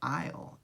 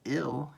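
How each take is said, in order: First: It begins with the long 'eye' vowel. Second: It begins with a short i vowel. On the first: The speaker calls it right. "it's I'll, and that's because it comes from the word I" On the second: The speaker calls it wrong. "This isn't ill"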